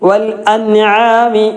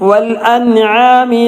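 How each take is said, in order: No difference in how they are said.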